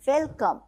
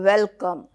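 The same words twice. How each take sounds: First: It is said warmly, with a smile. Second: It is said coldly, without a smile.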